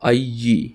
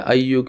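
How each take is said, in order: First: The word ends with an 'ee' vowel. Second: The word ends with an 'oo' vowel. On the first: The word follows a preposition. "हो गया अय्यी" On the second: The word stands alone without a preposition. "अय्यू की जगह"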